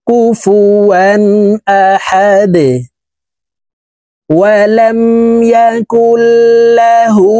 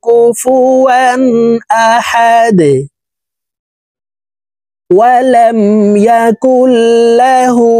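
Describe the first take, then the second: The two takes are said the same way.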